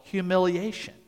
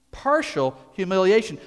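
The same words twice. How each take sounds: First: Said in the usual way. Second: Partial hit louder and higher; stress on partial. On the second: Shown as a demonstration. Preacher repeating for the congregation, stress on Partial. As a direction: lean on Partial.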